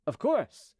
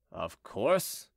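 First: High-pitched, obliging agreement; ready assent. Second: Low, grudging growl. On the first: Officer agreeing to open the gate, high and obliging. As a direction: agree readily, pitched well up. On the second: Chicot recognized by the officer once more, growling low. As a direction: grumble it low, under mild annoyance. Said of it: "growled Chicot". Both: A narrator's reading.

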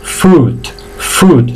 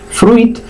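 First: "fruit" as long "frut", no I; silent I, lengthened. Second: "fruit" as "fru-it", the I heard; wrong, I sounded. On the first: Teacher models the right form, "fruit" with silent I. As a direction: stretch consonants and vowel in "fruit". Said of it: "Se alargan un poquito tanto las consonantes". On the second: Teacher shows learners the error, "fruit" with sounded I. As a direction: mistaken "fruit" with a "ui" glide. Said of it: "No digáis fruit porque la I no suena". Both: Shown as a demonstration.

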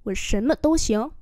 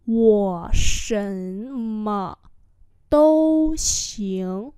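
First: Said in the usual way. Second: Wo shen me dou xiang syllable by syllable; slow demonstration. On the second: Shown as a demonstration. Teacher repeats a sentence for learners, slowly.

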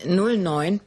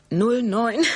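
First: Said in the usual way. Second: Laughing. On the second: Real, not acted. Reads numbers, laughs, corrects.

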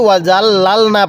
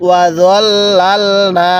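First: ওয়াজাল্লালনা said quickly in passing with a plain j sound; tossed off at speaking pace with the wrong j; common mispronunciation. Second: ওয়াজাল্লালনা chanted slowly, the hard dwad sound held, not a plain j; correct Quranic recitation. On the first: Teacher quotes the usual student mistake, spoken quickly. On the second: Teacher shows the right way against a common mistake, slow chant. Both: Shown as a demonstration. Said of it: "অনেকেই ওয়াজাল্লালনা পড়ে".

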